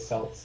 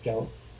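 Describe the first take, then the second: First: The word begins with an s sound. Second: The word begins with a k sound. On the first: The speaker calls it wrong. "They say Celts" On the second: The speaker calls it right. "you should say Celts"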